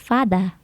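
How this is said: It is said in a British accent.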